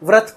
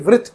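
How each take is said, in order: First: The syllable is said as vrat. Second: The syllable is said as vrit. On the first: The speaker calls it wrong. "मैं इसको व्रत पढ़ता" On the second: The speaker calls it right. "ना कि वृत पढ़ता"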